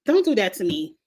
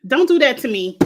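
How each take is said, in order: First: Said in the usual way. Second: Raised, louder exclamation of disgust; loud protest. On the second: Real, not acted. To coworker sharing gory photos, a loud protest. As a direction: push it away, loud and firm.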